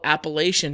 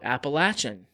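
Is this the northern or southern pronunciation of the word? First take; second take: northern; southern. First: The word is said the northern way. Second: The word is said the southern way. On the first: "We just call it Appalachian here in the north" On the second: "in the south they call it Appalachian"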